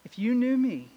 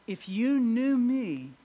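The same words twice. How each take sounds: First: Said in the usual way. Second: "If you knew me" slowed right down, weight on "you"; slow emphatic repeat. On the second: Shown as a demonstration. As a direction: lean on "you" and let it sink in.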